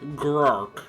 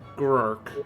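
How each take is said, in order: First: The word is said much louder, almost shouted. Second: The word is said at a normal, quieter volume.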